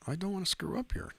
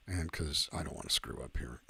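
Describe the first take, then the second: First: Much higher, playful pleading; mock high squeaky repeat. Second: Said in the usual way. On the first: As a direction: jump the voice way up, teasing. Repeats line, second one high.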